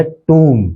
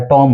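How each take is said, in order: First: टूम as TOOM with silent B; टूम rhyming with "room"; correct pronunciation. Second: टॉम with a short O; टॉम with "o", ending on M; mistaken pronunciation. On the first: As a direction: say टूम with a long "oo". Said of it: "actual इसका pronunciation है". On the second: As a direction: say टॉम like the name Tom. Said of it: "या टॉम होगा". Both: Shown as a demonstration.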